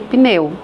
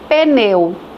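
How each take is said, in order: First: The p and n join with no vowel between. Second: An extra e vowel is inserted after the p. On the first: The speaker calls it right. "em vez de pneu" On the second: The speaker calls it wrong. "A pessoa acresce um fonema que não existe, com som de E"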